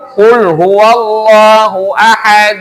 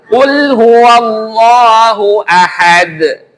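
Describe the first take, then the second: First: The final d stops flat with no bounce. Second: The final d ends with an echoing bounce. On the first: The speaker calls it wrong. "Lihat kolkolahnya mana?" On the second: The speaker calls it right. "Ada kolkolahnya keluar"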